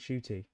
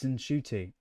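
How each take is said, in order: First: The name starts directly with a sh sound. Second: The name starts with an n before sh. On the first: The speaker calls it wrong. "I've been saying Shooty" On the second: The speaker calls it right. "It's Nshuti"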